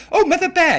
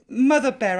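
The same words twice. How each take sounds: First: Louder calling out. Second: Said in the usual way. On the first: Real, not acted. Calling Mother Bear again after no answer, louder. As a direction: call her name again, louder and higher.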